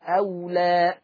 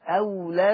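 First: The final vowel is long, with a stop after it. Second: The final vowel is short, joined to the next word. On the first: The reader stops on the word. "الألف متى تثبت؟ حال الوقف" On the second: The word runs on without stopping. "إذا ما في ألف حال الوصل"

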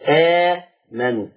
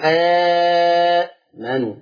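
First: The opening long vowel is held for two counts. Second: The opening long vowel is held for four counts. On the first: "اثنين" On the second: "وأربعة"

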